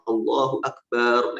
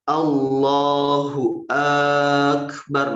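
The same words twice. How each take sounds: First: The b sound in akbar is drawn out. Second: The opening vowel of akbar is drawn out. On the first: "seperti memanjangkan ba pada kata akbar" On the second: "itu memanjangkan hamzah"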